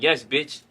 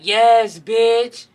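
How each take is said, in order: First: It is said in a deep, bass-heavy voice. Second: It is said in an effeminate, flamboyant voice. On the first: The remark is taken as an offense. "with a little bass in his voice" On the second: The remark is accepted and seen as harmless.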